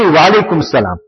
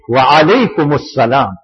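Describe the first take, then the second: First: The words run together, dropping the opening sounds. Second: Each word is said fully, with the ayn sound. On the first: The speaker calls it wrong. "And even we" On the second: The speaker calls it right. "There is a Ayn"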